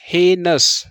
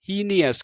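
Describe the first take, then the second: First: It has two syllables, starting with 'hay'. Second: It has three syllables, starting with 'hee'. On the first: The speaker calls it right. "अब पढ़िए हे नस" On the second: The speaker calls it wrong. "जो बिल्कुल भी गलत है"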